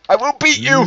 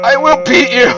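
First: High villain roar, half playful; roaring tyrant king. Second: Loud, high villain roar; roaring tyrant king. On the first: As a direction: bellow it like a mock tyrant. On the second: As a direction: roar the threat at full force. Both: Pretend. Chasing friend as mock king.

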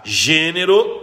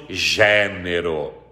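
First: GÊNERO with a closed e, rising at the end. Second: GÉNERO with a wide open e, slow, low and falling. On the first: Teacher reading out the hyphenated pair, gênero with closed E. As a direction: say gênero with the tight closed first E. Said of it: "A primeira com acento circunflexo". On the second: Teacher reading the second spelling, gênero with open E. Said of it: "a segunda com acento agudo". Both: Shown as a demonstration.

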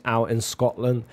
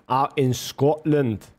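First: Said in the usual way. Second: Slow, self-admittedly weak Scottish accent. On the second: Shown as a demonstration. Streamer jokes about herders in Scotland, doing a poor Scottish accent. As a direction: stretch it out in a half-hearted Scottish accent. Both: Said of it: "that's my Scottish accent, bro".

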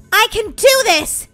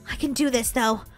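First: Slow, emphatic resolve; determined. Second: Low, soft pep talk to oneself; quiet self-encouragement. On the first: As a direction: declare it slowly, with growing nerve. Repeats with firm resolve. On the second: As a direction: reassure yourself softly. Orphan steels herself. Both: Pretend.

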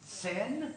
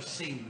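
First: "Seine" with an open eh, like "sen". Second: "Seine" with a long ee, like "seen". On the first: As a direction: say "Seine" to rhyme with "ten", as a question. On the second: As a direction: say "Seine" to rhyme with "green". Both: Shown as a demonstration. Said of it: "I can never pronounce it".

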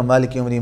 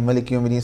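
First: Malik read as "Maalik", first a held long; long-vowel reading. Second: Malik read with a short first a; short-vowel reading. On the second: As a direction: keep the first vowel of Malik Yawmiddin brief. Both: Shown as a demonstration. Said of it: "we have the different qira'at".

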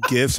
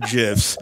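First: "gifs" with a hard G. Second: "gifs" with a soft G, like "jifs". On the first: Counting them for the guest, hard-G "gifs". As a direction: say "gifs" with G as in gift. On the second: Counting them for the guest, soft-G "gifs". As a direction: say "gifs" starting with a J sound. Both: Shown as a demonstration. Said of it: "now this is a polarizing topic".

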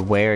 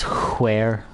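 First: Said in the usual way. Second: "where" said hwere, with a strong puff of H; exaggerated H. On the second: Shown as a demonstration. Player showing how some people say it, exaggerated H in "where". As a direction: blow a long H at the start of "where". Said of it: "emphasize the H in words".

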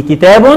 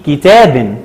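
First: كتاب read as "kitaabun"; damma tanween. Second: كتاب read slowly as "kitaabin"; kasra tanween. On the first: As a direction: end كتاب on "-bun". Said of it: "آدي شكل التنوين بالضم". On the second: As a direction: end كتاب on "-bin". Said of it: "وآدي شكل التنوين بالكسر". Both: Shown as a demonstration.

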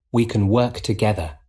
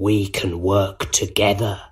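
First: Said in the usual way. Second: Sinister, persuasive villain voice; quiet Goblin. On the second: A narrator's reading. Goblin offers Spider-Man an alliance, quietly sinister. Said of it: "the Green Goblin said quietly".

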